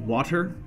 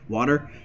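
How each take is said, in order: First: The middle t is crisp and clearly released. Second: The middle t sounds like a soft d. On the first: "I don't think I've ever said water like that" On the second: "the W A D E R, water is probably more common"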